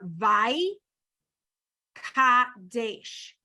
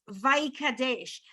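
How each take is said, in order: First: The two syllables are said apart, with a break. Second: The two syllables run together without a break. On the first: "the syllables are" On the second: "if you put it together"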